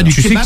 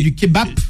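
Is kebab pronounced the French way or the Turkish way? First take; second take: French; Turkish. First: Kebab is said with a French pronunciation. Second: Kebab is said with a Turkish pronunciation. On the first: "non pas du kebab" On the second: "comme on dit en turc"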